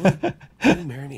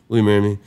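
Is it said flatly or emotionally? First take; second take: emotionally; flatly. First: It is said with passion, voice shaking. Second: It is said flatly, without emotion.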